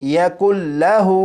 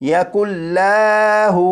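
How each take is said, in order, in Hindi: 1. लाम की आवाज़ को छोटा रखा जाता है। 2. लाम की आवाज़ को लंबा खींचा जाता है। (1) "बल्कि" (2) "इस लाम को खींच कर नहीं पढ़ेंगे ... इस तरह नहीं पढ़ेंगे"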